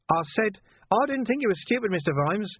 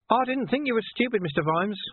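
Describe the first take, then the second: First: Sly villain, repeating. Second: Sly villain. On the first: Repeated, slightly louder. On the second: Villain voiced high. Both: A narrator's reading.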